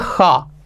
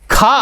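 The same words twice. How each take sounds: First: It starts with a rasping sound in the throat. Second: It starts with a plain aspirated k sound. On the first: "जब हम नुक्ता लगा देते तो उसे बोलते हैं खा" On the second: "खा अलग होता है"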